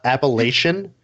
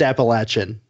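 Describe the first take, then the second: First: The word uses the outsiders' pronunciation. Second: The word uses the locals' pronunciation. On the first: The speaker calls it wrong. "it's not Appalachian" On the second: The speaker calls it right. "it's Appalachian. And I'm from there"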